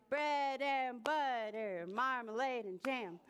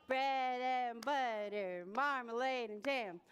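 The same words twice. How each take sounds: Both takes have the same delivery.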